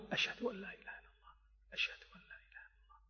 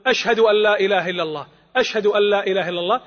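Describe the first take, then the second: First: Whispered under the breath, fast; low voice. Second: Spoken out fuller after the whisper; raised voice. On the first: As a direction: breathe the shahada in a hushed whisper. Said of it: "أن يقول الشهادة بصوت منخفت أو خافت". (همس خافت سريع) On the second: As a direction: lift the shahada back to full voice. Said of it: "ثم يعيدها بصوت مرتفع". (بصوت مرتفع بعد الهمس) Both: Shown as a demonstration.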